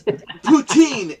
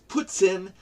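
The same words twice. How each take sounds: First: It is pronounced the common English way. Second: It is pronounced the Quebec French way. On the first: The speaker calls it wrong. "is not the proper pronunciation" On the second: The speaker calls it right. "It's poutine"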